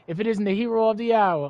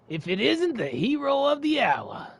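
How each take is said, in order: First: It is read in the speaker's ordinary voice. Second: It is read in a put-on character voice.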